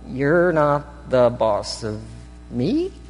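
The voice rises at the end, like a question.

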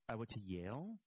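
The voice rises at the end, like a question.

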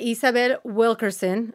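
The name is said with a Spanish accent. "I just said it in my Spanish accent"

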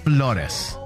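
The name is said with its heritage pronunciation. The name's roots are honored. The speaker calls it right. "I will now pronounce my name the right way"

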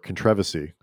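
It is said with a British pronunciation.

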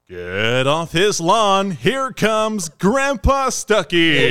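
It is said in a baseball announcer voice.

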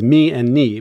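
The letter names are said the Greek way. "sticklers for the Greek pronunciation"

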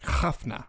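The word has a harsh, guttural throat sound. This is how it sounds in true Arabic. "in, like, true Arabic would be"

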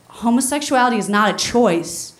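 It is said in an angry, forceful tone. The writer is furious at the listeners. "where I had shoved anger into each word"

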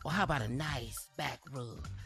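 It is read in a sexy voice.

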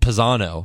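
The name is said with an American pronunciation. "in America, you pronounce it"

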